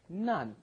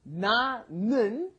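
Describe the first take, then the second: First: It is shortened to a single syllable. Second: It is said in full as two syllables.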